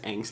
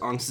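First: The word is pronounced the American English way. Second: The word is pronounced the German way. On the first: It means anxious reactions of not fully grown people. "angst is an American English word" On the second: It means fear. "Angst is just the German word for fear"

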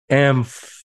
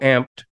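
First: The F sound is strongly emphasized. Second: The F sound is weak or barely heard. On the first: The speaker calls it right. "you have to really emphasize the F" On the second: The speaker calls it wrong. "you don't go amped"

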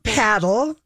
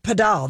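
First: It is said the American way, like paddle. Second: It is said the Spanish-inflected way, padel.

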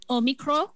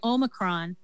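First: It is said the Greek way, with no N. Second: It is said with an English pronunciation.

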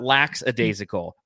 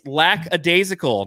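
First: The first syllable is said as 'lax'. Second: The first syllable is said as 'lack'. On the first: The speaker calls it wrong. "not lax-a-daisical" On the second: The speaker calls it right. "it's lackadaisical"

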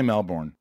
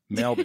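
First: It is said in an American accent. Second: It is said in an Australian accent. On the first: The speaker calls it wrong. "it's not right. Don't say Melbourne" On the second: The speaker calls it right. "if you just say it, you'll automatically get"

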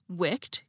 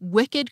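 First: The ed ending is only a final consonant. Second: The ed ending is its own extra syllable. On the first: "pronounced like most English words ending in ed" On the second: "had the same unusual pronunciation of the suffix ed"

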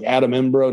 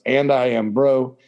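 First: It is run together like the name Adam Embro. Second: It is said as separate words, and I am bro. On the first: The speaker calls it wrong. "I always mispronounce it. I'm like Adam Embro" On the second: The speaker calls it right. "No, it's and I am bro"

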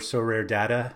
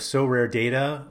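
First: The word 'Data' has a non-American pronunciation. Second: The word 'Data' has an American pronunciation. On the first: This is how the guest says it himself. "as he pronounces it himself" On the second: This is the presenter's own habitual way of saying it. "maybe I'm slightly Americanizing or non-mathematically saying it"

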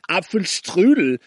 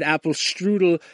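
First: The word is said with a German pronunciation. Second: The word is said with an anglicized pronunciation. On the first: The speaker calls it right. "and not Apfelstrudel" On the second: The speaker calls it wrong. "you said Apfelstrudel"

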